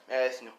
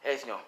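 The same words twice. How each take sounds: The two takes are said the same way.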